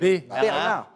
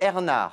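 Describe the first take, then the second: First: The name starts with a b sound. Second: The name starts without a b sound. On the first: "il y a B" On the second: "je n'ai plus le droit de prononcer les B"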